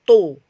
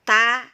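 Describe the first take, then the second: First: The sound is heavy, held back in the mouth. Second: The sound is thin and flows out openly. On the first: The speaker calls it wrong. "suara tidak boleh terkumpul di bagian rongga mulut sini, bukan to" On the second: The speaker calls it right. "Jadi ini harus harus mengalir"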